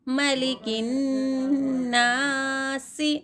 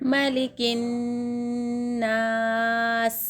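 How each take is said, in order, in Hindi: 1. आख़िरी शब्द छोटी i स्वर पर खत्म होता है। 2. आख़िरी शब्द बिना स्वर का व्यंजन पर खत्म होता है।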